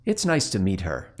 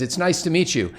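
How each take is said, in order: First: Lower, softer inner voice, leering; inner thought voice. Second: Politely upbeat, pitched a bit higher; polite greeting. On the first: Joe's inner voice in the skit, lower and leering. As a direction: let the hidden thought slip out quietly. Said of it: "you hear this voice go". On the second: Joe Montana greeting the young lady, politely upbeat. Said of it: "Joe says". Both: Retold or imitated.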